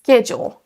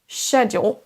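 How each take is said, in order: First: The word begins with a hard sk sound. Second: The word begins with a soft sh sound. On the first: "Et l'anglais américain, on aura un son sk" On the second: "Dans l'anglais britannique, on aura le mot schedule. On démarre par un son ch"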